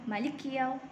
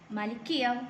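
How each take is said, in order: Both takes have the same delivery.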